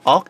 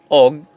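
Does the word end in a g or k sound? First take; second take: k; g. First: The word ends in a k sound. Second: The word ends in a g sound. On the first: "but the pronunciation is ok" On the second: "ang spelling yan ay og"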